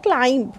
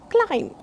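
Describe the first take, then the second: First: "climb" wrongly ending in a voiced B; sounded B in climb. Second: "climb" with the final B left silent. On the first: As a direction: say "climb" with a B after the M. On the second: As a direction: say "climb" ending on M, no B sound. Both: Shown as a demonstration. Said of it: "not climb".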